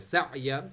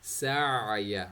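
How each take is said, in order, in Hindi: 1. आवाज़ अचानक रुक जाती है, जैसे कोई चीज़ झटके से पकड़ ली गई हो। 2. बीच के गले से निकली एक रुकी हुई ध्वनि। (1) "आवाज़ स्टॉप हो गई, इसका मतलब हमजा हो गया" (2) "आइन मिडिल मिडिल थ्रोट से सर्कुलेट हुई आवाज़ आ रही है"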